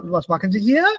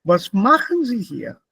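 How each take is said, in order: First: "was machen Sie hier" climbing on final "hier"; wrong rising question tune. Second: "Was machen Sie hier" stressed on "machen", falling on "hier"; falling question intonation. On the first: Teacher showing wrong W-question melody, rising intonation. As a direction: push "hier" up at the end. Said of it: "Das ist falsch". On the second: Teacher modelling correct W-question, falling intonation. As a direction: lean on "machen", let "hier" drop. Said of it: "Die Intonation steigt nicht". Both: Shown as a demonstration.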